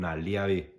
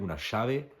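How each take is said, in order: First: The middle consonant is a 'y' sound. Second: The middle consonant is a 'sh' sound.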